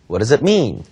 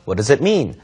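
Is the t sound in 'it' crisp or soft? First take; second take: soft; soft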